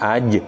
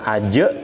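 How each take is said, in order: First: Only a short echo follows the j. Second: A full e vowel follows the j. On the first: The speaker calls it right. "tapi aj di tengah" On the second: The speaker calls it wrong. "bukan aje"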